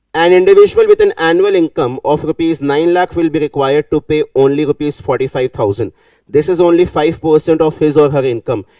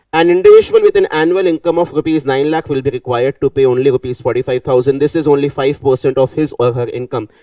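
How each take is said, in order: The two takes are said the same way.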